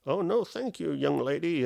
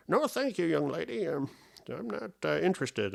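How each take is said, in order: First: Lightly voiced old man, pitched up; a hint of a courteous old gent declining; polite old man. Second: High quavery old man, fully put on. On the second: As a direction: turn down the girl like a creaky old gentleman. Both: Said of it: "I get this old man voice".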